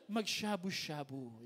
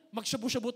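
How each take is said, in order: First: Slow, lower, drawn-out "mag-shabu-shabu"; correct pronunciation. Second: Quick, casual "mag-shabu-shabu"; wrong pronunciation. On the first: Shown as a demonstration. Pastor teaching the proper term, slow careful pronunciation. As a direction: stretch "mag-shabu-shabu" out slowly and low. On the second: Acted. Buddy inviting a friend, quick careless mispronunciation. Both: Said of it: "Ang tamang pronunciation".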